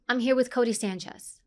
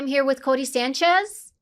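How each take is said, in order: First: The voice falls at the end. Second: The voice rises at the end. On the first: The speaker calls it right. "you always want to go down when you speak" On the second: The speaker calls it wrong. "this is very dominant today"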